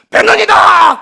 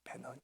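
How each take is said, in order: First: It is said in a loud, booming voice. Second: It is said barely audibly, very quietly.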